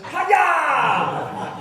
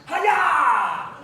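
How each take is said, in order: First: High, loud chop shout breaking into a laugh; kid's karate yell. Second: High, loud martial arts shout; karate chop yell. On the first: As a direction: yell it like a kid copying his hero, laughing. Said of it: "Todd stands up ... and goes". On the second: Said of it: "Mister Cushioning jumps up and goes". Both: Retold or imitated.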